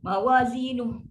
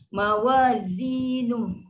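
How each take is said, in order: First: The word ends with a harsh, rough sound. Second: The word ends with a soft, gentle sound. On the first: The speaker calls it wrong. "Sangat kasar" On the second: The speaker calls it right. "lembut aja"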